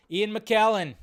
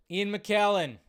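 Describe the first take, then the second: No difference in how they are said.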